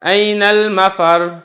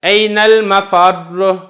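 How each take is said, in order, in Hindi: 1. अंतिम व्यंजन हल्का होता है और दोहरा नहीं किया जाता। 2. अंतिम व्यंजन को ज़ोर से दबाकर और दोहरा कर बोला जाता है। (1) "अगर आपने इसको नरमी से अदा किया" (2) "इसको सख्ती से अदा करें"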